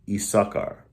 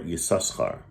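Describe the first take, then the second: First: The name begins with a plain vowel sound. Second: The name begins with a y sound.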